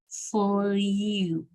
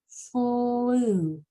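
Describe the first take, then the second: First: The vowel is said as yoo, with a y-glide. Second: The vowel is a plain oo sound. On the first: The speaker calls it wrong. "say the whole sound you. That would sound like this" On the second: The speaker calls it right. "it's just going to come out naturally"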